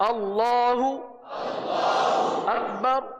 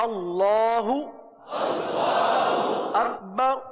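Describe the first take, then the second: The two takes are said the same way.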